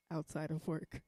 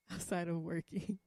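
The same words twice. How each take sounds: First: Said in the usual way. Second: Sheepish chuckle on "outside of working"; laughing correction. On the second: Real, not acted.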